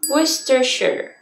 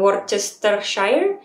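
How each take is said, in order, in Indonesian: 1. Bunyi r dan c dihilangkan. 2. Bunyi r dan c diucapkan. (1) "Jadi kayak R C di depan tuh hilang" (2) "bukan Worcestershire"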